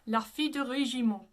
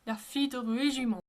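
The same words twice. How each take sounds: No difference in how they are said.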